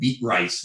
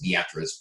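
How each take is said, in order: First: The name sounds like the two words beet rice. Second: The name is said in its standard local way. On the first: It is a joking way that annoys local people. The speaker calls it wrong. "I like to call it beet rice" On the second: It is the way local people say it. The speaker calls it right. "It's actually pronounced Beatrice"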